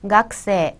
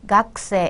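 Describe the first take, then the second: First: The vowel after the k is dropped. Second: The same.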